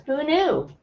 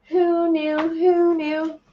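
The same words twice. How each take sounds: First: Said in the usual way. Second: Much higher, teasing sing-song; playful sing-song. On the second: Pretend. To livestream viewers after finding her calendar, playful high sing-song. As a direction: toss it up high like a little tune.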